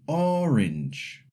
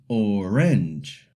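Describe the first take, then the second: First: ORange, stress on the first syllable; orange, front-stressed the usual English way. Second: Orange drawn out slowly, stressed on the second syllable; wrongly stressed oRANGE, very slow. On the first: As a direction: say orange with the opening syllable strong. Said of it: "in English we say orange". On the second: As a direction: push the weight onto the end of orange. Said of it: "not orange". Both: Shown as a demonstration.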